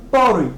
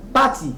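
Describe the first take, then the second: First: "party" said as "PAW-ree", the T softened to an R; American pronunciation. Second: "party" said with a clear T, "PAH-tee"; Nigerian pronunciation. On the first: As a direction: tap the T in "party", like "pori". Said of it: "les Américains prononcent party". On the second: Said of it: "certaines personnes prononcent party". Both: Shown as a demonstration.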